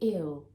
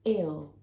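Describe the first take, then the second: Both takes have the same delivery.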